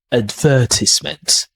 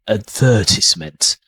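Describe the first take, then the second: First: It is said in a British accent. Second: It is said in a British accent.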